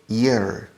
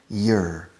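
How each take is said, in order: First: It begins with a soft Y glide sound. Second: It begins with a soft Y glide sound.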